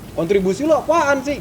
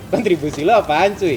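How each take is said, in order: First: It is said in a heated, aggressive tone. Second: It is said in a relaxed, friendly tone.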